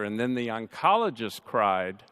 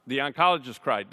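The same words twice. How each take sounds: First: Said in the usual way. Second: Oncologist hit faster and a bit louder; stress on oncologist. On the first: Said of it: "The oncologist cried, not my sister". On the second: Shown as a demonstration. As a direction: punch the word oncologist to correct. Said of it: "not my sister".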